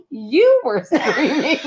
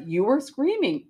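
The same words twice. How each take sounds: First: Slow, with the stress on "You" and a laugh breaking in; incredulous retort. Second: Said in the usual way. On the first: Retold or imitated. Wife retelling how she threw the blame back at her husband, incredulous. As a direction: throw "You" back at him, slowly and laughing. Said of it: "And I was like". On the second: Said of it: "And he says".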